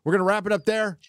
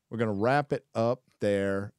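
First: Announcer-style call. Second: Said in the usual way. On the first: Acted. Host wrapping up, first take.

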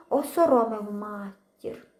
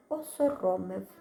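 First: "Осоромив матір" drawn out slowly, weight on "осоромив"; slow heavy stress. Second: Said in the usual way. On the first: A narrator's reading. Boy realising he shamed mother, "осоромив" slow and heavy. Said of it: "repeated slowly". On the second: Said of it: "repeated for weight".

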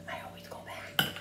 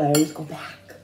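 First: Unvoiced whisper, much softer. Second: Said in the usual way. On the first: Shown as a demonstration. Repeating to viewers in a whisper. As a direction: breathe it out as a secret. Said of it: "Why am I whispering?".

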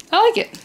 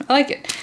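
First: Delighted. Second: Said in the usual way. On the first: Real, not acted. Delight at the new machine.

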